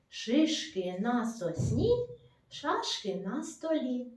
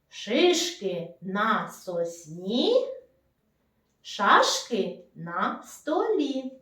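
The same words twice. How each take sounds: First: It is said a little faster than normal. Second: It is said at a normal, unhurried pace.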